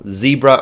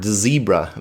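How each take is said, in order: First: It starts with a plain z sound. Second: It starts with a dz sound.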